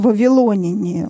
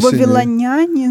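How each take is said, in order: First: The stress is on the third syllable. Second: The stress is on the fourth syllable. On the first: The speaker calls it right. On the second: The speaker calls it wrong.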